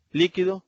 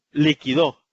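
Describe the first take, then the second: First: "líquido" with the stress on LÍ; stress on first syllable. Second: "liquidó" hit loud on the final DÓ; stress on last syllable. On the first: Teacher contrasting word accents for students, "líquido" stressed on LÍ. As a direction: lean on the opening syllable of "líquido". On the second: Teacher contrasting word accents for students, "liquidó" stressed on final DÓ. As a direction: push the weight onto the end of "liquidó". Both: Shown as a demonstration. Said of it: "por la posición del acento podemos distinguir".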